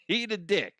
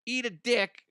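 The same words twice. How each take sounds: First: Said through a laugh, higher. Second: Defiant. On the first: Podcaster repeating the jab at critics, laughing. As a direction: chuckle it out. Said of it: "repeated through a laugh". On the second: Podcaster telling his online critics off, mocking and defiant. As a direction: tell the critics off with a sneer. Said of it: "defiant jab at critics". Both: Real, not acted.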